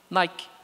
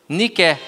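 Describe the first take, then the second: First: The first vowel sounds like 'eye'. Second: The first vowel sounds like 'ee'. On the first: This is the English brand name. "como é inglês, inglês é chique, aí o I não tem som de I, tem som de I" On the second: This is the original Greek word for victory. "pesquisa a palavra vitória em grego. É a palavra Nike"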